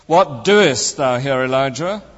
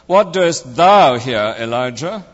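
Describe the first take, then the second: First: The stress is on the word doest. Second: The stress is on the word thou. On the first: "emphasizing each word in turn" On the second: "emphasizing each word in turn"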